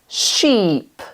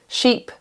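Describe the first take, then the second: First: The vowel is held long. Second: The vowel is cut short. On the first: The speaker calls it right. "here are some long vowel sounds" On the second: The speaker calls it wrong. "if we do them without the long vowel sounds"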